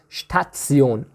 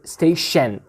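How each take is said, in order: First: The middle 'ti' sounds like 'tsi'. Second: The middle 'ti' sounds like 'sh'. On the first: This is the German pronunciation. "in German we have Station ... So we pronounce it Sion" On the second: This is the English pronunciation. "in English we say sh"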